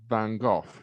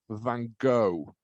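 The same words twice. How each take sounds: First: The name is said with a Dutch pronunciation. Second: The name is said with an American pronunciation. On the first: The speaker calls it right. "the correct pronunciation is Van Gogh because it's Dutch" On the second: The speaker calls it wrong. "Americans call Van Gogh Van Gogh"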